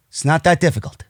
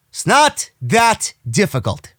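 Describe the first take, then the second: First: Said in the usual way. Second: "not that difficult" slow, each word set apart; emphatic. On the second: Real, not acted. Host driving home that booking is simple, emphatic on "not that difficult".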